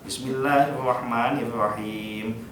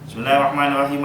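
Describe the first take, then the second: First: It is recited at a fairly quick pace. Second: It is recited extremely fast, rushed. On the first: It suits a congregation of young people. The speaker calls it right. "tautilnya lebih cepat tidak apa-apa" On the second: It sounds like being angry rather than praying. The speaker calls it wrong. "Jangan kayak Valentino Rossi jadi pembalap gitu"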